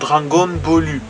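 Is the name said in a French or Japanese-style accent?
Japanese-style. It is said Japanese-style with an added final vowel. "on va dire Dragon Ballu"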